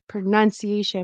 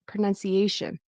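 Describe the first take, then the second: First: The syllable before -tion is not stressed. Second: The syllable before -tion is stressed. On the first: The speaker calls it wrong. "I thought I heard pronunciation" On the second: The speaker calls it right.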